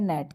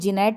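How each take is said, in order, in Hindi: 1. शब्द सीधे N की आवाज़ से शुरू होता है। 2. G की आवाज़ शब्द से पहले बोली जाती है। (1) "इसको बोलते हैं नेट" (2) "इसको जी नेट नहीं बोलते"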